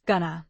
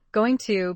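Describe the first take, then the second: First: "gonna", going and to merged into two syllables; linked, reduced form. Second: Said in the usual way. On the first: Shown as a demonstration. Teacher showing how going to gets reduced, linked form. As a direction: say "gonna" as one reduced word. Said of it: "Function words get linked and reduced". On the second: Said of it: "going to becomes gonna".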